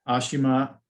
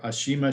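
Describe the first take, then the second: First: Ashima with stress on the opening A; first pronunciation option. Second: Ashima with stress on the middle "shi"; second pronunciation option. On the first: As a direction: say Ashima as AH-shi-ma. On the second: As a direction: say Ashima as a-SHEE-ma. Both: Shown as a demonstration. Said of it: "how you pronounce her name".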